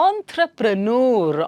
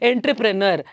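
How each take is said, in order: First: It begins with 'on' and ends in 'noor'. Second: It begins with 'en', following the spelling. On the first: The speaker calls it right. "How do you pronounce it originally" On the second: The speaker calls it wrong. "ಅದು ಹೇಗೆ sound ಅಕ್ಷರಗಳು ಬರುತ್ತೆ ಆ ರೀತಿನೇ ಹೇಳ್ತಾರೆ"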